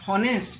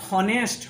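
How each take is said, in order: First: The word begins with an audible h sound. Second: The same.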